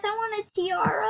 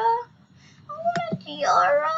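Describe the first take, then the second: First: Said in the usual way. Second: Mock-tearful high, drawn-out whine; whiny begging. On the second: Young player begging for a tiara in the game, whiny. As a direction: beg for it like a whining little kid.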